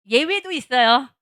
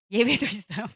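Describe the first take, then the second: First: Louder, slower, stressing 예외도; emphatic aside. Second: Said in the usual way. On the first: Shown as a demonstration. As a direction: stress 예외도 to stop the protest.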